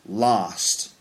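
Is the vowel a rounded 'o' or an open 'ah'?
ah. The vowel is an open unrounded 'ah' sound.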